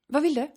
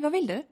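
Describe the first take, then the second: First: The question sounds curt and harsh. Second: The question sounds warm and friendly. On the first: The speaker is busy and wants the caller to get to the point. "Och jag menar inget illa" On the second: The speaker is glad to hear from the caller. "Det där lät ju för sig jävligt trevligt"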